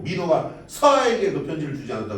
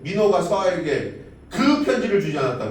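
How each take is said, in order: First: The stress falls on the word 서아에게. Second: The stress falls on the word 편지를. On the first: The letter was given, but not to this recipient. "민호가 편지를 주긴 줬는데 서아에게 준 건 아니라는 거지" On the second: Something was given, but it was not the letter. "민호가 서아에게 뭐가 주길 줬는데 편지를 주진 않은 거지"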